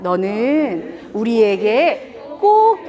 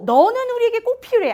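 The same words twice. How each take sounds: First: Drawn out very slowly, word by word; slow and tender. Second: Tender praise. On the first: Teacher shows parents how to praise slowly and tenderly. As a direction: say it slowly while holding their gaze. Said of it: "천천히". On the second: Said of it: "제일이란 말을 꼭 해주셔야 됩니다". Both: Shown as a demonstration.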